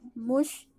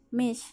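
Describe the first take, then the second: First: The word is said with an 'u' vowel. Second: The word is said with an 'i' vowel. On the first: "Pengucapannya beda" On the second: "Pengucapannya beda"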